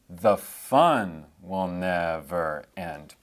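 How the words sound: The stress is on the word fun.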